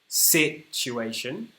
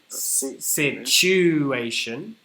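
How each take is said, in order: First: The stress is on the first syllable. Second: The stress is on the second syllable.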